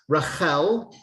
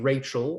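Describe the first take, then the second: First: The name is said with its Hebrew pronunciation. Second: The name is said with its English pronunciation. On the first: This is the original form of the name. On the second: This is the form the name later took.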